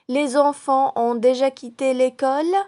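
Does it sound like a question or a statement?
question. It is said with question intonation. It asks whether this is true.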